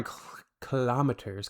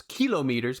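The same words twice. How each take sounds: First: KILOMETERS stressed on the second syllable, "kuh-LOM-uh-ters"; kilometers stressed mid-word. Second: KILOMETERS as "KEE-lo-meters", stress on the first syllable; kilometers stressed up front. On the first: Says it two ways, correcting himself. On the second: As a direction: hit the KILO in kilometers. Second take, other pronunciation. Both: Shown as a demonstration.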